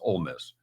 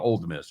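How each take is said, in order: First: The first word ends without a d sound. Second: The first word ends with a clear d sound. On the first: The speaker calls it right. "It's Ole Miss" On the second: The speaker calls it wrong. "Don't say Old Miss. Stop doing that"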